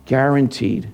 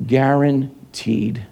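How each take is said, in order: First: Said in the usual way. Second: Guaranteed. stretched out slowly, each syllable held; slow emphatic Guaranteed. echoing the catchphrase; drawn-out echo. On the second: Retold or imitated. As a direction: draw out Guaranteed. the way the host said it.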